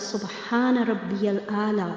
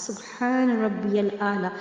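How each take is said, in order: The two takes are said the same way.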